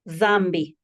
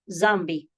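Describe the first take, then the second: First: The word begins with a voiced th sound. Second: The word begins with a z sound. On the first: This is the sound borrowed from Arabic. "like the T H that is voiced in English" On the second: This is how people inland say it. "pronounce the D H with a Z sound"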